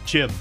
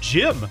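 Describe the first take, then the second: First: The name begins with a sharp ch sound. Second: The name begins with a soft j sound. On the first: The speaker calls it right. "No, it's Chim" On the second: The speaker calls it wrong. "Sounds like they're saying Jim"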